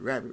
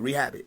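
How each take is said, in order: First: It is said fast, merging into one word. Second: It is said at a normal, careful pace. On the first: "Say it fast" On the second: "When I say rehab it, what do you hear?"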